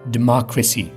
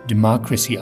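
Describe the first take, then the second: No difference in how they are said.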